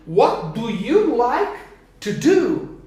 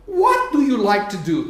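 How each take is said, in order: First: Slow model. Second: Said in the usual way. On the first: Shown as a demonstration. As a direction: spell out "What do you like to do" slowly for the class. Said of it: "teacher builds the question slowly". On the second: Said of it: "teacher repeats the question at normal speed".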